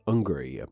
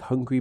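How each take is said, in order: First: The H is dropped, southeast English style. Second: It starts with a clear H sound.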